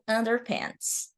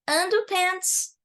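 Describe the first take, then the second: First: It is said with an American accent. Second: It is said with a British accent. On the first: "no caso do inglês americano" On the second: "No caso do inglês britânico"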